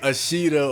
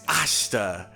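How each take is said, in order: First: The middle i vowel is fully pronounced. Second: The middle i vowel is dropped, said quickly. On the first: The speaker calls it wrong. "It's not like Ashita" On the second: The speaker calls it right. "it's really quick. It's like it's like Ashta"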